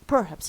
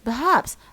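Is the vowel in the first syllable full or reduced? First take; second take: full; reduced. First: The first syllable has a full, strong vowel. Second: The first syllable has a weak schwa vowel. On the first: The speaker calls it wrong. "no, wrong wrong" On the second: The speaker calls it right. "it becomes weak so we say perhaps"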